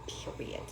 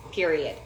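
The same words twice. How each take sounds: First: Breathy whispered repeat; whispered afterthought. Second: Said in the usual way. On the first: Shown as a demonstration. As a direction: whisper it like a final aside.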